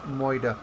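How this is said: It is said in a mock Boston accent. "I get a bit of that faux Boston accent when I say moida"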